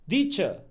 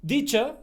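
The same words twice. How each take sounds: First: Said in the usual way. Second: Italian accent, teacher said as deacher with a D; in an Italian accent, swap the T in teacher for a D. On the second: Shown as a demonstration. Showing how Italians say it, Italian accent. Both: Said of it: "replace the T with the D".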